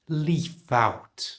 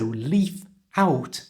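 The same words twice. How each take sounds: First: The f sound links into the next word. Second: The two words are said separately. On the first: "moving the F to the front of out" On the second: "You can also join the leaf and out"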